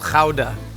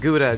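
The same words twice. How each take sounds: First: The word is said with a Dutch pronunciation. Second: The word is said with an English pronunciation. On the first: The speaker calls it right. "I overpronounce ... Dutch words in food. This is called gouda" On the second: The speaker calls it wrong. "not Gouda"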